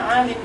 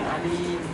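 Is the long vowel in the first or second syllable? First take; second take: first; second. First: The long vowel is in the first syllable. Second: The long vowel is in the second syllable. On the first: This is the real singular of ulama. The speaker calls it right. "ternyata ulama malah mufradnya alim" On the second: This is the singular the regular pattern predicts. The speaker calls it wrong. "bukan alim ... seperti karim"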